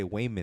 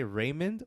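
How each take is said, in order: First: WAYMOND with a W replacing the R; "Waymond" as an accented Raymond. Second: Said in the usual way. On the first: Shown as a demonstration. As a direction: say "Waymond", opening on a W sound. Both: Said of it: "when you have an Asian accent".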